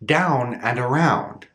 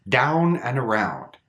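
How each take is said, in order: First: "Down" and "around" with the big open ow; "Down and around" with the full open ow; unraised ow in "Down" and "around"; open diphthong. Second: "down" and "around" with a big open ow; "down and around" with the wide open ow; full unraised ow in "down" and "around"; open diphthong. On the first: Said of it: "we don't raise it". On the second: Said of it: "Notice that big difference". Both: Shown as a demonstration.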